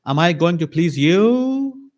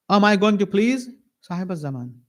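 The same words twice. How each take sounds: First: Slow, high challenge landing on a drawn-out "you"; stress on YOU. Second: Raised question that comes down on "Sahib al-Zaman"; stress on SAHIB AL-ZAMAN. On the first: Preacher asks whether to please the host, YOU drawn out high. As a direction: raise and stretch YOU into a rising question. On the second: Preacher offers the Imam instead, SAHIB AL-ZAMAN weighed with falling close. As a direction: set SAHIB AL-ZAMAN apart, settling to a falling end. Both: Acted. Rhetorical contrast, you or the Imam.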